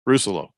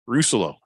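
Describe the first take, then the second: The two takes are said the same way.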